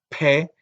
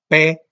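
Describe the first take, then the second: First: The consonant is released with a puff of air. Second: The consonant is released with no puff of air. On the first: "Usted nada más la suelta y deja friccionar un poco el aire" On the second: "las oclusivas sordas comunes y corrientes son P"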